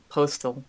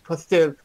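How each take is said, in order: First: The name is said in a plain accent. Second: The name is said with a French accent. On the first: "I want to say Postel" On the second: "I made him sound like French. It's like, oh yes, Postel"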